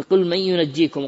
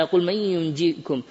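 First: Said in the usual way. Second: "ينجيكم" drawn out slowly with a doubled jim; slow, deliberate Quran recitation; slow careful recitation. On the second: Shown as a demonstration. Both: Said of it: "بالتشديد، مثل قوله تعالى".

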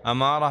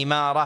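First: "أمارة" opening with a short a, amara; fatha on first letter. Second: "إمارة" opening with a short i, imara; kasra on first letter. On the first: Teacher shows the word for sign, "أمارة" said amara. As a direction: say "أمارة" with an a on the hamza. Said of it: "بالفتح". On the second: Teacher shows the word for rulership, "إمارة" said imara. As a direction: say "إمارة" with an i under the hamza. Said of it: "بالكسر". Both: Shown as a demonstration.

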